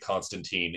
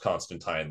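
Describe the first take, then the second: First: The last syllable sounds like teen. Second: The last syllable rhymes with wine. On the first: "they do actually pronounce it Constantine in that movie" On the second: "technically pronounced Constantine, like wine"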